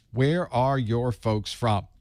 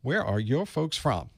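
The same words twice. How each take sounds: First: Slow, drawn-out friendly question; slow Southern ask. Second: Said in the usual way. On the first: Shown as a demonstration. Host asking chat viewers where their family is from, slow and friendly. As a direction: stretch it out like a Southern neighbor. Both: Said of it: "that's how we work here in the South".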